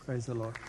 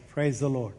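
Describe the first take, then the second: First: Softer and lower repeat of praise; hushed echo. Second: Said in the usual way. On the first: Real, not acted. A preacher echoing his own praise to the congregation, hushed and low. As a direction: murmur the praise again under your breath.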